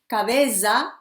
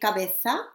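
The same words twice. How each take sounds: First: It is said with a South American Spanish accent. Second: It is said with a Spanish accent from Spain. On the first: "she says cabeza, nariz, or something like this" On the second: "I say cabeza ... because I'm from Spain"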